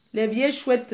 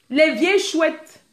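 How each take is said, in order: First: Said in the usual way. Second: Slow, stretched out; slowly savoured insult; drawn out. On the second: Shown as a demonstration. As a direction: lean on vieilles and drag it.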